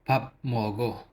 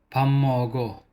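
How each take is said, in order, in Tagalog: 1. Ang unang pantig ay nagtatapos sa tunog na p. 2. Ang unang pantig ay nagtatapos sa tunog na m. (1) "Hindi papmogo"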